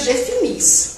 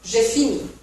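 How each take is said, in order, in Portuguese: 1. O S final é pronunciado. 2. O S final é mudo.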